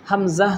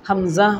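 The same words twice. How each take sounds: The two takes are said the same way.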